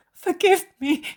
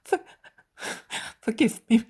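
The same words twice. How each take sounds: First: Much higher, loud wailing plea; high wailing cry of forgiveness; sobbing harder. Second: Choked, tearful plea, louder; broken sobbing apology. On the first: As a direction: let the sob break wide open. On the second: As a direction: beg forgiveness through sobs. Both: Acted.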